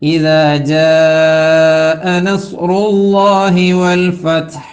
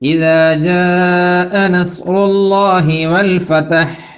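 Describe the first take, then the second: First: The t in fath has no vowel after it. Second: The t in fath carries an extra vowel. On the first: The speaker calls it right. "എന്നാണ് പറയേണ്ടത്" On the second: The speaker calls it wrong. "ഫത്ഹിന് ഫതഹ് കൊടുത്തിട്ട് എന്താ ചെയ്യാ?"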